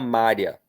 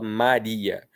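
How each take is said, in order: First: The I and A merge into one syllable. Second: The I and A are in separate syllables. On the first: The speaker calls it wrong. "a gente não fala Mária" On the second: The speaker calls it right. "a gente fala Maria"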